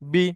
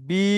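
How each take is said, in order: First: The vowel is kept short. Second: The vowel is stretched out long. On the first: "এটাতে হবে না" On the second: "এটাতে টান হবে"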